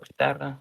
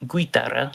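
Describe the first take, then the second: First: Guitarra said as gi-tarra, U silent; right way, silent U. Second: Guitarra said as gwi-tarra, U sounded; wrong way, U voiced. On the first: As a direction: say guitarra with a hard g, no U. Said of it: "You don't pronounce this U in the middle". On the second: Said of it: "You don't pronounce this U". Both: Shown as a demonstration.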